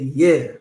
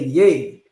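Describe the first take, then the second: First: The word sounds like 'yeah', with an open vowel. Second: The word sounds like 'yay', with a closed vowel. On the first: "So I like to say yeah" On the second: "Some people will say yay, which is also correct"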